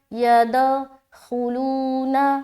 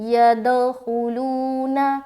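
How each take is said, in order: The two takes are said the same way.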